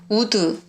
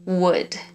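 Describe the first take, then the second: First: It is said with a Korean-style pronunciation. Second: It is said with a native English pronunciation. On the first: The speaker calls it wrong. "긴장 풀고 대충 말을 하면 우드 이러잖아요" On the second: The speaker calls it right. "would would would 이렇게 따라하다 보니까 되더라고요"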